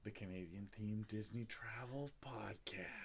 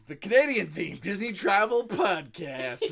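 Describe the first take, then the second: First: It is said in a deep, dramatic announcer voice. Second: It is said in an ordinary, everyday speaking voice.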